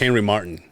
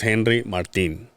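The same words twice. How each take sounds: First: The name is pronounced with English sounds. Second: The name is pronounced with Spanish sounds. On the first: "if you if you read it in English, like" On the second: "this is"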